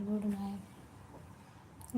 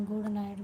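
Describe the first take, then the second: First: Very slow, much softer "good night" that fades away; drawn-out soft goodnight. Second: Said in the usual way. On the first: Real, not acted. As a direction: stretch out "good night" slowly and let it trail off. Repeated goodnights closing the stream.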